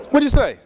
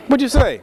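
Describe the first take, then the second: No difference in how they are said.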